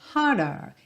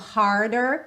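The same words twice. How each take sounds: First: The R sounds are dropped. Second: The R sounds are curled.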